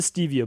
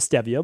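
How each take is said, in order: First: The first vowel is a long 'ee' sound. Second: The first vowel is a short 'eh' sound. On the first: "the first one is E" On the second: "people like to say stevia"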